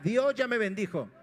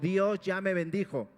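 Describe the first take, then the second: First: It is said with strong, believing conviction. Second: It is said plainly, without special conviction.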